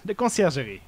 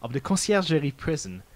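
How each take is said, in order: First: Conciergerie said with a nasal French on; kon-see-air-zhuh-ree in a French manner; French pronunciation. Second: Said in the usual way. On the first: Acted. Falcon says the French name.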